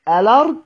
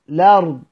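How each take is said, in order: First: The word begins with an a vowel before l. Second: The word begins directly with the l sound. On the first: "اما نبدأ بالهمز الوصل" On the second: "او بنبدأ باللام"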